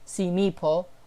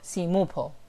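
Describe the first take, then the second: First: An extra i vowel follows the M sound. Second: An extra u vowel follows the M sound. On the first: "it's not simple, simipo" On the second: "or simupo"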